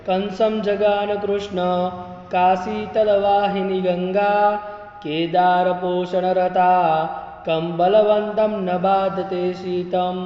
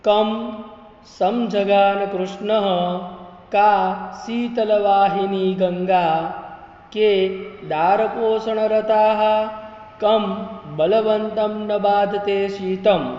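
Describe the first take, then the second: First: Word breaks join the syllables into answer words. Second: Word breaks split the syllables into question words. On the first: The verse gives the answers to the riddles. "આવી રીતે પણ બોલાય છે" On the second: The verse asks a series of riddle questions. "પેલું જે હું બોલ્યો એની અંદર ઉખાણા રીતે પ્રશ્નાર્થ આપેલા છે"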